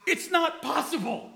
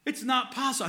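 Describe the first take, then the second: First: High, laughing declaration; joyful certainty breaking into a laugh; overjoyed preacher laughing; worked-up laugh. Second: Settling worked up. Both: Real, not acted. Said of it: "I'm getting worked up".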